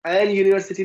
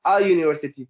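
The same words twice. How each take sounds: First: एन picked out as "en" before university; rejected form, stressed. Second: अ as an open "a", tune falling over university; correct form, settled. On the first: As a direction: stress एन as the mistake to avoid. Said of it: "नहीं, बल्कि". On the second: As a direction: offer अ as the correction, pitched down. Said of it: "बल्कि". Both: Shown as a demonstration.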